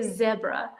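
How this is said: The word is said in a British accent. "the British say"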